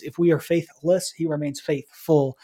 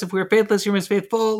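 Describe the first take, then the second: First: Deliberate contrast of "faithless" against "faithful"; emphasized verse. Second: Brisk, even recitation of a verse; quick run-through. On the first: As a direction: lean on "faithless", then answer it with a measured "faithful". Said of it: "But I would emphasize". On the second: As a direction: rattle through it like a list. Rattles through the verse list. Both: Shown as a demonstration.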